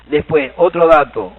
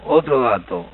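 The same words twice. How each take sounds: First: Otro dato said slowly and loud, falling on otro; slow down and push otro dato out loud; emphatic announcement. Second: Said in the usual way. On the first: Shown as a demonstration. Teacher to class, announcing the next point about Guaraní: slow and loud.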